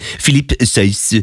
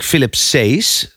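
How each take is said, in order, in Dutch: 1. De naam wordt uitgesproken met een Franse klank. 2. De naam wordt uitgesproken zonder een Franse klank. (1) "het zal ook wel weer een Fransman zijn" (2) "ik weet niet of ik zijn naam goed uitspreek"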